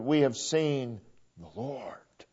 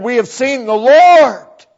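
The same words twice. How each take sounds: First: Hushed whisper, slow. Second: Proclaimed. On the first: Pastor repeating the disciples' words in a slow whisper. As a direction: breathe it like a secret wonder. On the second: Pastor quoting the disciples, proclaimed louder. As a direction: ring it out, fuller and louder. Disciples' words, contrasted by repetition. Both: Acted.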